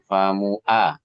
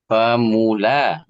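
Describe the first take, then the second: First: The middle consonant is a glottal stop. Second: The middle consonant is a clear L sound. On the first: The speaker calls it wrong. "bukan famua" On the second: The speaker calls it right. "itu bukan hamzah, tapi lam"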